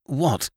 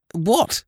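First: Higher-pitched overcome "What?"; a startled, overwhelmed question falling away; almost overcome. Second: High, louder frightened question; rising, alarmed "What?"; in fear. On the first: Man cornered by the girls, almost overcome. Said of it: "he said, almost overcome". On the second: Man menaced by the girls, asking in fear. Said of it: "he said in fear". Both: A narrator's reading.

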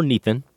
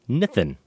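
First: "Nathan" said NEE-then, long ee; long-vowel variant. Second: "Nathan" said NITH-en, short i; short-vowel variant. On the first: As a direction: say "Nathan" with the first vowel as in "need". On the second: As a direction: say "Nathan" with the first vowel as in "pit". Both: Shown as a demonstration. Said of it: "or Nathan".

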